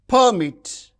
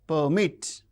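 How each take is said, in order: First: The stress is on the first syllable. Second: The stress is on the second syllable. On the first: It is used as a noun or adjective. "the stress is on the first syllable" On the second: It is used as a verb. "when they function as verbs, the stress is on the second syllable"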